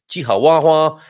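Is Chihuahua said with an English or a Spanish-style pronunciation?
Spanish-style. The word is said with a Spanish-style pronunciation. "as I love to say Chihuahua. I'm sure that's the proper Mexican pronunciation"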